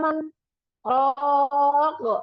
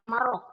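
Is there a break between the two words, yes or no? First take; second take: yes; no. First: There is a short break after the first word. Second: The two words are merged without any break. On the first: The speaker calls it right. "karena sakah maka dibaca berhenti berhenti di man" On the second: The speaker calls it wrong. "dia tidak dibaca marok"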